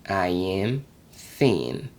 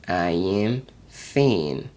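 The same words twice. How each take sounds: Both takes have the same delivery.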